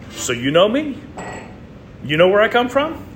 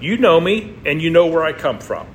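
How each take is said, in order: First: It is said as a rising question. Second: It is said as a falling statement.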